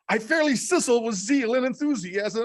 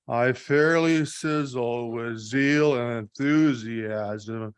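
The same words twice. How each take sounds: First: It is read with lively, high energy. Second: It is read in a flat, low-energy way. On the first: The speaker calls it right. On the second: The speaker calls it wrong.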